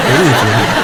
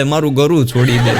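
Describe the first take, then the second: First: Fading laugh. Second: Said in the usual way. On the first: Retold or imitated. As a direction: let the last words melt into a chuckle. Repeating dying husband's words.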